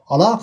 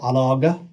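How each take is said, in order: First: The middle consonant is a deep q sound. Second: The middle consonant is a hard g sound. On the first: The speaker calls it right. "we pronounce the qaf" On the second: The speaker calls it wrong. "We don't say alaga"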